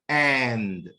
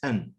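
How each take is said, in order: First: The word is said with a full vowel. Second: The word is said with a reduced schwa vowel. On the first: "in connected speech, I do not pronounce it in this way" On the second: "There is a weak form for and"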